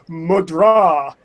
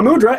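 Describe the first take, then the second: First: The word has an Indian-style pronunciation. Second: The word has an anglicized English pronunciation. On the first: The speaker calls it right. "it's really pronounced mudra" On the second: The speaker calls it wrong. "I'm not even saying it right"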